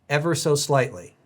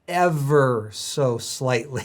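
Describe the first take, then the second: First: It is said plainly, without extra emphasis. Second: It is said with strong, drawn-out emphasis.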